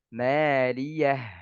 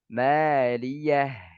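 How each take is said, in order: Both takes have the same delivery.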